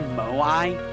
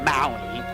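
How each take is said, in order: First: It does not sound like the island Maui. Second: It sounds like the island Maui. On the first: The speaker calls it wrong. "we say Moai, but it's not Moai" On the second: The speaker calls it right. "It's like Maui. Apparently it's pronounced Maui. You know, like the island"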